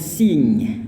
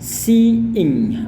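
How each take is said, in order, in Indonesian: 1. Bunyi vokal dan 'ing' menyatu. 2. 'See' dan 'ing' diucapkan terpisah. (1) "orang juga salah melafalkannya dengan" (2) "yang tepatnya adalah"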